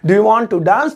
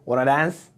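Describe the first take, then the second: First: Every word is said fully and separately. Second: The words are squeezed into a short form. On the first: "present definite tense से डू लग रहा है" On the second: "native style में American या ब्रिटिशियर्स इसको कैसे बोलेंगे"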